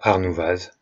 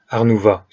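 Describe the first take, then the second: First: The word ends with an audible z sound. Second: The word ends on a vowel, no final consonant. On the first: The speaker calls it wrong. "et pas Arnouvaz" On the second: The speaker calls it right. "les X et Z ne se prononcent pas... on prononce donc Arnouva"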